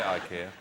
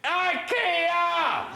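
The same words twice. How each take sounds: First: The word is said at normal, quiet volume. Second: The word is shouted very loudly.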